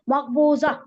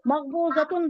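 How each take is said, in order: First: The word ends with a vowel, no t-sound. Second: The word ends with a t-sound and -un. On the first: The speaker calls it right. "ताए मरबूता को आप हाय साकिना से बदल देती" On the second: The speaker calls it wrong. "मकबूजतुन बोलने के बजाय"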